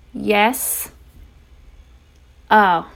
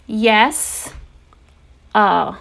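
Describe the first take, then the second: No difference in how they are said.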